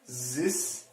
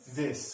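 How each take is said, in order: First: The word begins with a z sound. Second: The word begins with a th sound. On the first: The speaker calls it wrong. "we're not trying to produce the Z sound" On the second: The speaker calls it right. "It needs to be the this sound"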